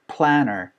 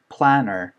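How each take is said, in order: First: The words run together like 'planner'. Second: The same.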